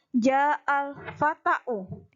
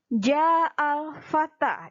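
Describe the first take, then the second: First: The last word ends in an added u. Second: The last word ends in a long a. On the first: The speaker calls it wrong. "Tidak boleh kalian membacanya" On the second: The speaker calls it right. "dia dalam keadaan rofa"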